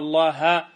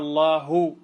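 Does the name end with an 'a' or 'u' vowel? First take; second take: a; u. First: The name ends with an a vowel. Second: The name ends with a u vowel. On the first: Moses spoke to Allah. The speaker calls it wrong. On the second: Allah spoke to Moses. The speaker calls it right.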